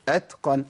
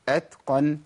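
Both takes have the same delivery.

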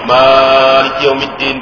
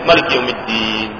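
First: The first vowel of Maliki is held long. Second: The first vowel of Maliki is kept short. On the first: "boleh panjang atau pendek?" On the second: "boleh panjang atau pendek?"

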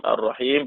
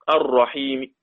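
First: The final consonant ends fully silent. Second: The final consonant ends with a faint vowel. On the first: "مع السكون المحض" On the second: "الروم مع القصر"

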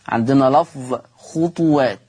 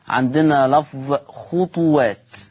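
Both takes have the same delivery.

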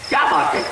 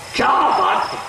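First: It is said as a concerned question. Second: It is said with amazement and admiration. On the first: The speaker is asking what the matter is. "استفسار حال کے لیے جملہ ہو جائے گا" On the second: The speaker is marveling at something. "یعنی ازراہ تعجب"

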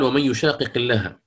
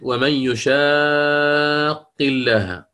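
First: The two q sounds are pronounced separately. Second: The two q sounds merge into one doubled q. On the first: "ففي الأول عندنا إظهار" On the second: "والثاني عندنا إدغام"

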